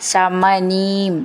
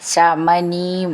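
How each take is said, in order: Both takes have the same delivery.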